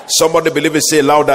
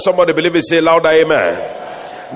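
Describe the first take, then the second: First: Loud rousing call for a response; rally the crowd to answer; call to the congregation. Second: Louder, dragged-out rallying call; repeated call. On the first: Preacher calling the congregation to answer, loud. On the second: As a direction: press the crowd harder, stretching amen. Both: Real, not acted. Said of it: "I said".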